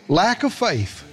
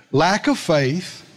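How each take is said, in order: First: Said in the usual way. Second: Lack of faith drawn out slowly, word by word; slow it right down the second time; slow emphatic repeat. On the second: Shown as a demonstration.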